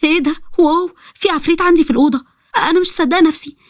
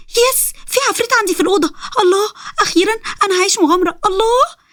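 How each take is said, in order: First: Put-on high-pitched astonished girl; high, awed disbelief; stunned amazement. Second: Put-on very high, thrilled girlish squeal; overjoyed. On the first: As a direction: gasp it out in wonder, voice raised in pitch. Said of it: "بذهول". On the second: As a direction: celebrate an adventure in a soaring voice. Thrilled to find a demon.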